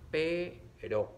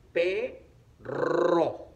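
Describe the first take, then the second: First: Slow "Pero" with a light tapped r; R suave. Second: Loud, drawn-out "Perro" with a long trill; R fuerte. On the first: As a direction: split "Pero", one flick of the r, no trill. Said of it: "para que suene suave". ("Pero" separado, con erre suave de un toque) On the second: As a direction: split "Perro" and roll the rr hard. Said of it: "Suena fuerte". ("Perro" lento y fuerte, con erre bien vibrada) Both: Shown as a demonstration.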